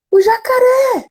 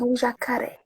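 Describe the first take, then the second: First: Voz de menino pequeno, bem mais aguda; criança assustada. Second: Bem mais baixo, quase em segredo; quiet mock fear. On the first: Retold or imitated. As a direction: diga como uma criança com medo. Filho com medo do jacaré. (criança imitada, voz bem aguda) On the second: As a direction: repita baixinho, entrando na brincadeira. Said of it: "Falei assim". (mãe repete baixinho para o filho)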